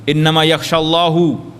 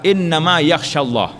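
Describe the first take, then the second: First: Allah is said with a final 'u' vowel. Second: Allah is said with a final 'a' vowel. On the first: God fears the scholars. The speaker calls it wrong. "baris depan jadi kono" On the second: Scholars fear God. The speaker calls it right. "Kalau baca baris atas"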